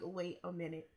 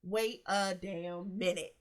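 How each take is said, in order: First: Dawning realisation. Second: Slow, each word weighed: Wait a damn minute; slow emphatic realisation. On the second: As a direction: drag it out as it sinks in. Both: Retold or imitated. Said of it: "I was like".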